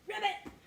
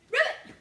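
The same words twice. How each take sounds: First: High loud ribbit; frog ribbit. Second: Very high, very loud ribbit shout; loud frog ribbit. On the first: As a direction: croak like a happy frog. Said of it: "say ribbit really loud". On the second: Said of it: "Let's say ribbit really loud". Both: Shown as a demonstration.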